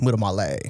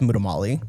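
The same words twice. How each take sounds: First: The name is said with an Italian accent. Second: The name is said with an American accent. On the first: "there's like an Italian way" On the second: "there's like an American way"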